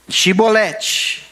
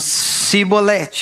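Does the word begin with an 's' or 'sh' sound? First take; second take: sh; s. First: The word begins with a 'sh' sound. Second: The word begins with an 's' sound. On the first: This is the form the listeners expect. The speaker calls it right. "Então diz aí" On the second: It gives the speaker away as an outsider. The speaker calls it wrong. "esta palavra na sua boca está adulterada, equivocada"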